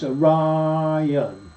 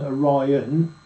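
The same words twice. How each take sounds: First: The I vowel is long. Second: The I vowel is short. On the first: "pronounced as a test by giving the long sound to I" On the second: "instead of going Orion"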